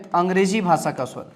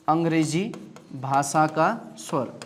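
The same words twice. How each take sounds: First: Said in the usual way. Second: Very slow, each word drawn out so the class can write it; slow dictation. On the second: Shown as a demonstration. Teacher slowly dictates the term to the class, drawn-out. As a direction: drag out अंग्रेजी भाषा का स्वर like dictating to students.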